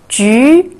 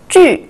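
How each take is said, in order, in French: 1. La hauteur monte du milieu vers le haut. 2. La hauteur chute brusquement depuis le haut.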